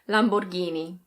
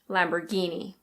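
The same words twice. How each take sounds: First: It is said with an Italian pronunciation. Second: It is said in an American accent, r pronounced. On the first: "in Italian it's something like Lamborghini" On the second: "In American English, the R is pronounced"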